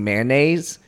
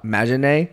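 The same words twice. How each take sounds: First: The word has a plain standard English pronunciation. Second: The word has an unusual foreign-accented pronunciation. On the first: "instead of saying mayonnaise" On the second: "she says some English words really weird"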